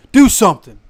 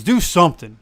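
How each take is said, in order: First: Rising demand; louder, higher repeat. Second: Said in the usual way. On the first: Shown as a demonstration. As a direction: Do something shouted up high.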